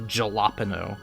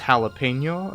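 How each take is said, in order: First: The word begins with a J sound. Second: The word begins with an H-like sound. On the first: The speaker calls it wrong. "instead of" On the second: The speaker calls it right. "it's pronounced jalapeno ... I know it doesn't start with a J"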